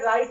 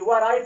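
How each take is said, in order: First: The word begins with an r sound. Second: The word begins with a w sound. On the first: The speaker calls it right. "ये right है" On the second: The speaker calls it wrong. "वह right पढ़ते हैं, नहीं वह right नहीं है"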